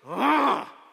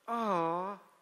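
First: The groan sounds angry and fierce. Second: The groan sounds sad and sorrowful.

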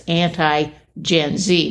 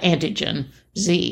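First: It is grouped as anti plus Gen Z. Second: It is grouped as antigen plus Z. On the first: Against Generation Z. The speaker calls it right. "it's anti-Gen Z" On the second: An antigen with a Z added. The speaker calls it wrong. "not antigen Z"

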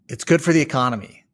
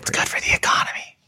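First: It is spoken in a normal voice. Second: It is spoken in a whisper.

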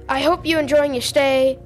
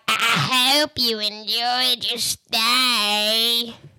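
First: It is said in a normal, pleasant voice. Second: It is said in a Scooby-Doo villain voice.

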